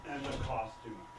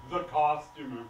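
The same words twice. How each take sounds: First: Low, softer weary mention; weary complaint. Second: THE COSTUMER. repeated firmly and louder, still low; emphatic disgust. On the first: Director listing his troubles to the waitress, wearily. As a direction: let it drop, low and subdued. First take, resigned complaint. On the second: Director griping to the waitress, "The costumer." said with heavy disgust. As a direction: bear down on "The costumer.". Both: Acted.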